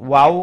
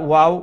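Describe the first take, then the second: No difference in how they are said.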